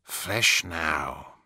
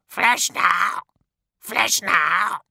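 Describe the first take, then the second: First: Said in the usual way. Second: High loud squawking crow demand; crow calls. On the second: Acted. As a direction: caw it greedily like a crow. Crows complain.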